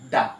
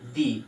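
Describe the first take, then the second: First: The vowel sounds like 'uh'. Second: The vowel sounds like 'ee'. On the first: The next word starts with a consonant sound. "Consonant sound হ'ব ... উচ্চাৰণটো কেনেধৰণে কৰিম দা" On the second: The next word starts with a vowel sound. "Vowel sound থকা শব্দটোৰ আগত ... কেনেধৰণে পঢ়িম দি"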